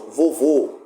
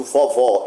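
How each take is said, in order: First: VOVÔ ending on a closed "oh"; closed final O. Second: VOVÓ ending on an open "aw"; open final O. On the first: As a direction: say vovô with a close, rounded last vowel, as in "go". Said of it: "por exemplo, o circunflexo". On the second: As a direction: say vovó with a wide-open last vowel, as in "saw". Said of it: "o agudo". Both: Shown as a demonstration.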